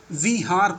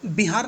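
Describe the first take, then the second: First: विहार opening on a V sound; विहार drawn out, starting with V rather than B; correct V reading. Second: बिहार opening on B with a short i; बिहार with lips closed for a B at the start; wrong B reading. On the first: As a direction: say विहार slowly as "vee-haar". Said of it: "विहार पढ़ते हैं". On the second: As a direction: say बिहार as "bi-haar". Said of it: "इसको बिहार नहीं पढ़ते हैं". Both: Shown as a demonstration.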